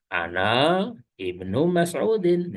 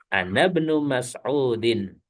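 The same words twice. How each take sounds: First: The 'i' of ibnu is pronounced separately. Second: The 'i' of ibnu is dropped, linking words. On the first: The speaker calls it wrong. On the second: The speaker calls it right. "hamzah wasal ... di tengah dia tidak terbaca"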